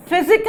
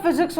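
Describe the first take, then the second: First: फिजिक said with no final s, as the wrong form; wrong form without s. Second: फिजिक्स with the final s clearly said; correct form with s. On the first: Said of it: "फिजिक्स होता है". (बिना एस के फिजिक) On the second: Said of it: "फिजिक नहीं होता". (फिजिक्स का एस साफ़ बोलो) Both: Shown as a demonstration.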